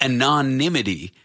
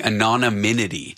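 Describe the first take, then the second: First: Anonymity as "an-o-NIM-i-ty", stumbling in first; a careful, rehearsed anonymity after a false start; careful correct pronunciation. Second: Anonymity said as "a-non-i-min-i-ty" with an extra n syllable; extra-syllable mispronunciation. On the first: Shown as a demonstration. Host trying the corrected word, halting and careful. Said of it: "I had to rehearse the word". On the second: Retold or imitated. Host admitting his old wrong way, extra-syllable anonymity. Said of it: "pronouncing it with an extra syllable".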